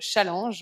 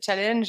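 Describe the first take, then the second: First: The word is said the French way. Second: The word is said the English way. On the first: "on va dire, à la française" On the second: "j'arrive jamais à prononcer ce mot"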